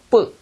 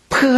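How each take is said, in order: First: The consonant is hard, with closed lips. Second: The consonant is soft and aspirated. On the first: "입술을 닫히고 뿌 해야 됩니다" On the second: "이게 프 하면은"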